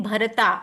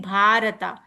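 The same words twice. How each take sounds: First: "Bharata" with short uh-like vowel after Bh; short first a. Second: "Bharata" with long aa after Bh; long first a. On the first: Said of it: "I'm not saying it Bharata". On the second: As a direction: stretch the first vowel of "Bharata". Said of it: "I'm saying it Bharata". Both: Shown as a demonstration.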